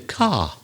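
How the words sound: The final R is silent. "in the south, they would say the car"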